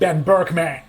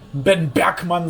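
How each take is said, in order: First: The name is pronounced the English way. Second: The name is pronounced the German way. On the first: The speaker calls it wrong. "und nicht Ben Bergman" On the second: The speaker calls it right. "werde ich auch immer weiterhin Ben Bergmann sein"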